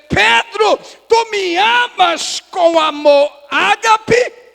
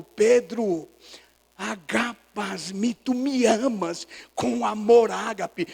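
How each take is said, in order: First: High shout, slow, rising at the end; impassioned questioning. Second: Slow, drawn-out "agapas-mi", at normal volume; deliberate intonation. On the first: Jesus asks Peter about agape love, impassioned shout. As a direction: shout the question, drawing out each word. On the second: Jesus asks Peter the third time, slow deliberate intonation. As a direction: weigh out "tu me amas com amor ágape" slowly, without shouting. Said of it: "Jesus põe a entonação". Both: Acted.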